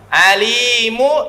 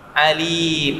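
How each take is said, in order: First: The word ends with a short vowel sound. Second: The word ends on a bare consonant. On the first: The reading continues without stopping. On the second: The reading stops here.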